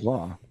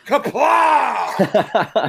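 First: The word is said quietly. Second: The word is shouted loudly. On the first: The speaker calls it wrong. "You can't say kaplah like" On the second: The speaker calls it right. "I'm glad you yelled that out"

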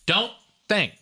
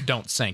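First: The second word begins with a soft TH-like sound. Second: The second word begins with a clear S sound. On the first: This is how the cockpit announcement sounds. "it always sounds like don't think because the S is very unpronounced" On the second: This is what the announcement actually says. "It's don't sink"

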